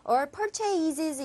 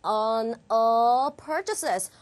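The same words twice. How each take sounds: First: "All purchases" with every sound equally full; overly spelt-out "All purchases"; evenly weighted mistake. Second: Slow "all", then "purchases" with reduced endings; low, drawn-out "On all purchases"; model pronunciation. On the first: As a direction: mispronounce "purchases" with full, even vowels. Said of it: "이렇게 발음 다 똑같이 하시지 않기로 했죠". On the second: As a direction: stress PUR in "purchases", weaken the rest. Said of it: "그렇게 어떻게 간다?". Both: Shown as a demonstration.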